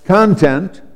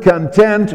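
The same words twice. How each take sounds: First: "content" said CON-tent; open, stressed CON at the start of "content"; stress on first syllable. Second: "content" said con-TENT; weak first syllable in "content", weight on TENT; stress on second syllable. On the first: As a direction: say "content" like the noun for what is held, CON-tent. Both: Shown as a demonstration. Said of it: "the word content or content".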